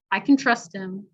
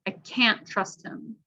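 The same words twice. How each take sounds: First: "can" relaxed to kin, stress on "trust"; unstressed can. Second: CAN'T long and slow, full clear "a" vowel; stress on CAN'T. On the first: Teacher repeating for the vowel sound, can reduced to kin. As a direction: shorten can to kin before trust him. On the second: Teacher repeating for the vowel sound, stressed clear CAN'T. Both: Shown as a demonstration. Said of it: "listen to the vowel sound".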